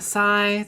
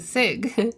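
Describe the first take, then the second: First: The word ends in a vowel, no G sound. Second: The word ends with a hard G sound. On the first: The speaker calls it right. "like a sigh" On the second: The speaker calls it wrong. "I would just say it with a hard G"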